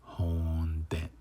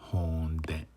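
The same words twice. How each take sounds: Both takes have the same delivery.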